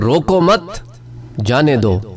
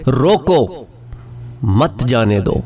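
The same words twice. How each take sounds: First: The pause comes right after 'mat'. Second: The pause comes right after 'roko'. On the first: Do not stop him; let him go. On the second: Stop him and do not let him go.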